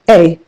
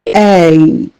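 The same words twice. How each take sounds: First: It is said plainly without separating its sounds. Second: It is drawn out so each sound is heard. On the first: The speaker calls it wrong. "and not A" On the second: The speaker calls it right. "each letter will be pronounced with deliberate emphasis to ensure the distinct sounds that combine to form each letter are clearly noticeable"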